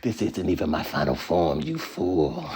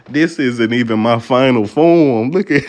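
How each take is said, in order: First: Lower, softer menacing villain voice; sinister villain. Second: Gloating villain. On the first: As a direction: purr it like a boss hiding his power. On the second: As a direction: boom it out like a final boss. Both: Retold or imitated. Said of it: "I'm feeling like a villain".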